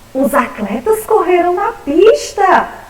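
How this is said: It is said as a surprised exclamation.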